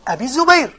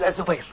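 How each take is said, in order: First: "Abi Zubayr", first word clearly ending in ee; distinct name form. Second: "Az-Zubayr", low and soft, no "bi" syllable; distinct name form. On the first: Teacher contrasting two narrators' names, "Abi Zubayr" said distinctly. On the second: Teacher contrasting two narrators' names, "Az-Zubayr" said distinctly. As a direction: say "Az-Zubayr" with a buzzed z straight after A. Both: Shown as a demonstration. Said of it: "What's the difference?".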